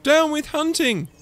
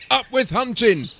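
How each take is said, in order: First: High, loud hooting chant; high-voiced little protester. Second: High, loud rallying chant; lusty storybook battle cry; shouting. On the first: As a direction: hoot it like a contrary slogan. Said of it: "he hooted". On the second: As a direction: shout it as a hunting slogan. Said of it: "they shouted". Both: A narrator's reading.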